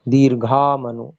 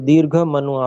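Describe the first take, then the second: First: The first word ends in a long vowel. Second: The first word ends in a short vowel. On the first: The speaker calls it right. "दीर्घ है" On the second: The speaker calls it wrong. "इसको दीर्घ मनु आपने पढ़ा था"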